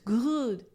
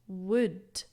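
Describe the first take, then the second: First: The word begins with a g sound. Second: The word begins with a w sound. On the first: The speaker calls it wrong. "A lot of my students, or a lot of people I've heard, they say" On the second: The speaker calls it right. "listen to my pronunciation of would"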